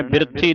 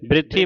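First: ਬਿਰਥੀ as bir-thee; wrong full r. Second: ਬਿਰਥੀ as brit-thee; quick joined cluster. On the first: Teacher shows what to avoid, ਬਿਰਥੀ as bir-thee. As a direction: sound a full r before th in ਬਿਰਥੀ. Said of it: "ਪੂਰਾ ਰਰ ਲੱਗਦਾ ਹੈ". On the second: Teacher models correct reading, ਬਿਰਥੀ quick as brit-thee. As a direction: run b and r together in ਬਿਰਥੀ. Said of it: "ਜਲਦੀ ਦੇ ਨਾਲ ਉਚਾਰਨ". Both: Shown as a demonstration.

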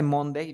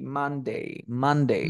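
First: "Monday" with a round O, as mon-day; wrong Monday. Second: "Monday" with an open A, as man-dei; corrected Monday. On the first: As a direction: say "Monday" as spelt, with an O. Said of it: "en lugar de Monday". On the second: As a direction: open the first vowel of "Monday" to A. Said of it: "di Monday". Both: Shown as a demonstration.

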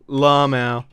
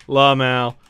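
Both takes have the same delivery.

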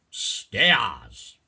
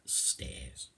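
First: Loud, drawn-out Cockney; Cockney accent. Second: Said in the usual way. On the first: Shown as a demonstration. Teacher translating apples and pears, loud Cockney. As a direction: belt the word in broad Cockney. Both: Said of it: "I'll do the first bit in Cockney".

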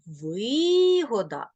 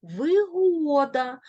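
First: Вигода with long stressed ви; stress on first syllable. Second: Вигода with long, high stressed го; stress on second syllable. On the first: Teacher showing the profit sense, first-syllable stress. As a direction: stretch ви in вигода. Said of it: "вигода в значенні користь". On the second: Teacher showing the convenience sense, second-syllable stress. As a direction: stretch го in вигода, slowly. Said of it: "Вигода в значенні зручність". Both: Shown as a demonstration.

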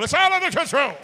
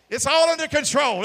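First: Louder, higher mock reassurance, "It's all under control." said with a sneer. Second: Mock official reassurance. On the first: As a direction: mimic a smug official brushing it off. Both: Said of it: "don't lie to us and say it ain't happening".

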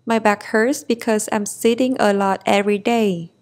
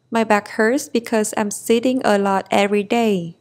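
No difference in how they are said.

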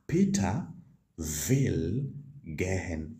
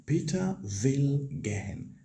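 First: Slow, careful German model line; slow model sentence. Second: Said in the usual way. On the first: Shown as a demonstration. Teacher slowly modelling the German sentence for students. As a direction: say will gehen slowly for learners. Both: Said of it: "You simply say".

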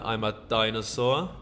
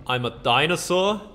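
First: Said in the usual way. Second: Rising, disbelieving question; just realised you're a dinosaur; surprised question. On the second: Real, not acted. Gamer discovering his character became a dinosaur, surprised question.

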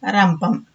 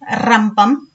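First: రంపం with a light r, pitch let down; present-day soft r. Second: రంపం with a strongly rolled r, rising ending; old hard r. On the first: Teacher showing today's letter, రంపం with light r. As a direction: say రంపం with a short tapped r. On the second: Teacher showing the old letter, రంపం with hard rolled r. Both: Shown as a demonstration. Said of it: "ఇలా వీటిని పలుకుతున్నాము".

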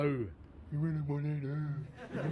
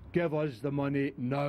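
First: Slow, softer, breaking into laughter; can't keep a straight face on the threat; laughing mock hard man. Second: Gruff demand for cash; hard man threat. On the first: Thug cracking up mid-threat, laughing and slow. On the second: Acted. Gangster demanding the money from Kenny, threatening. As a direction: lean on him for the money. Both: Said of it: "That's the way you're saying it".

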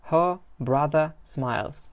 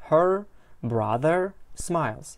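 First: "her brother" with the final r dropped from both words; British-style silent r in "her" and "brother"; r-less pronunciation. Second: "her brother" with the final r sounded in both words; American-style r in "her" and "brother"; r-ful pronunciation. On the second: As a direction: say "her brother" slowly, pronouncing each r at the word ends. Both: Shown as a demonstration. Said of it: "Ikkovsi ham talaffuz qilinishi".

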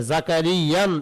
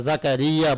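First: জাকারিয়ান with an added n ending, shown as the wrong way; wrong form with nunation. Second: জাকারিয়া ending in a plain open a, no n; correct form without nunation. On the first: Teacher showing students the wrong nunation জাকারিয়ান. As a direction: say জাকারিয়ান with a final n, as a mistake. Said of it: "এরকম বলা হয় না". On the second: Teacher giving students the correct জাকারিয়া, no nunation. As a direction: say জাকারিয়া with no n at the end. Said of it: "জাকারিয়া বলা হয়". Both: Shown as a demonstration.

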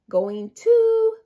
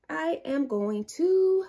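First: Going TO, higher and louder; stress on to. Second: Slow I am going TO, leaning on to; stress on to. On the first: Teacher repeating going to with a loud lift on to. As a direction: punch the word to, high and loud. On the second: Teacher stressing the sight word to for the class. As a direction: stretch out going to, landing on to. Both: Shown as a demonstration. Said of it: "Let's use the same sentence".

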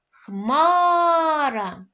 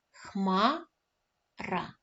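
First: Хмара called out loud and drawn, stress on ХМА; calling out the word. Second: Said in the usual way. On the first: Shown as a demonstration. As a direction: call out Хмара, leaning on ХМА. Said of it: "Давайте гукать слово". (гукаючи слово Хмара з наголосом на ХМА) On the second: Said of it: "Перевіряємо".

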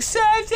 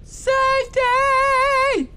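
First: Hammed-up call for the dog Safety. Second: Very high, slow, loud stretched call; hammed-up slow yell for a lost dog; long drawn-out call. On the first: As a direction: yell it out the door for a lost dog. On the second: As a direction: holler it across the yard for the dog. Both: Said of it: "yelling out your door".

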